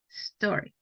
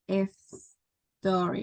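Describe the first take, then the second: First: The word starts directly with the s sound. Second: An extra vowel comes before the initial s. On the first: The speaker calls it right. "It's just s- story" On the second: The speaker calls it wrong. "it's not S story"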